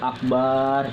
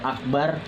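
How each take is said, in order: First: The final vowel is drawn out long. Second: The final vowel is short. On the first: It means a drum. The speaker calls it wrong. "Kalau akbar itu artinya beduk" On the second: It means most great. The speaker calls it right. "Kalau akbar itu maha besar"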